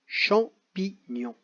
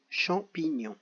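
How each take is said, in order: First: Champignon stretched out slowly, syllable by syllable; slow dictation. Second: Champignon repeated softly at normal pace. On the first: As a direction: draw out champignon for the children. (champignon détaché très lentement) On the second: (champignon répété doucement) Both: Shown as a demonstration. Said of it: "Coche chaque syllabe dans laquelle tu entends".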